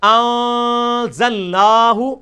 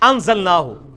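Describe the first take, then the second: First: The n before z is hidden in nasal hum. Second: The n before z is pronounced clearly. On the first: The speaker calls it right. "बल्कि पढ़ा जाएगा अनजलनाहु। ये जो गुन्ना किया जा रहा है, इख्फा करके पढ़ा जा रहा है" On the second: The speaker calls it wrong. "इसको आप क्या पढ़ते हैं"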